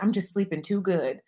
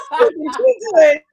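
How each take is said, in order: First: Said in the usual way. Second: High, loud laughing repeat; cracking up while repeating it; laughing hard. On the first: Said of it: "He's like". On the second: Real, not acted. Retelling husband's line, cracking up.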